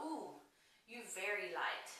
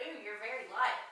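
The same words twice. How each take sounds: First: Soft, quiet imitation of a saleslady's Asian accent; mock Asian accent. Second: Said in the usual way. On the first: Saleslady color matching her pale skin, mock Asian accent. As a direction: lightly put on a playful Asian accent. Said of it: "I just made a weird Asian accent". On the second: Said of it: "she said".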